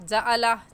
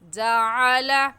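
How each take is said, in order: First: The middle consonant is a plain glottal stop. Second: The middle consonant is a squeezed throat sound. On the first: The speaker calls it wrong. "आइन की जगह हमज़ा" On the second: The speaker calls it right. "सही है"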